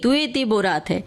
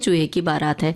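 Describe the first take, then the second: First: The sounds are softened into lisping baby talk. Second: Every sound is pronounced clearly as in adult speech. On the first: A small child is speaking. The speaker calls it wrong. "तोतली बोली" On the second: The child has learned to speak properly. The speaker calls it right. "बच्चे ने खुद सीख लिया"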